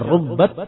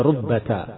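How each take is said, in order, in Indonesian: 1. Huruf t di akhir tidak diikuti vokal. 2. Huruf t di akhir diikuti bunyi a pendek. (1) "bisa pula sukun" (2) "bisa fathah"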